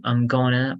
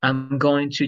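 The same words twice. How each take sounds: First: "I'm gonna" run together as one word; "I'm gonna" with a weak, short "I'm"; reduced linking. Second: Said in the usual way. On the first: Shown as a demonstration. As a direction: shrink "going to" into "gonna". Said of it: "I'm going to change this to". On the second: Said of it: "changes this to I'm gonna".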